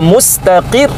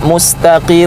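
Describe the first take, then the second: First: The final letter is pressed with slight emphasis. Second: The final letter is said plainly without pressure. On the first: The final letter is doubled. The speaker calls it right. "ada tekanan sedikit" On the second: The final letter has no doubling. The speaker calls it wrong. "jangan kita baca mustaqir"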